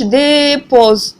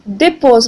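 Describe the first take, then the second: First: The first vowel is drawn out long. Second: The first vowel is short and quick. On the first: The speaker calls it wrong. "ما كنقولوش dépose non" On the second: The speaker calls it right. "la prononciation elle est très courte"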